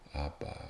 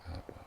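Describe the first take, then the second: First: It is said slowly. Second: It is said fast.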